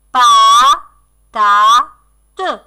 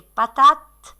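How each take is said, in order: First: "Pa, ta, te" with a long gap after each; scanned syllables. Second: Said in the usual way. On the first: Shown as a demonstration. Teacher breaking the last word down for children, syllable by syllable. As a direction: beat out "Pa, ta, te" one syllable at a time.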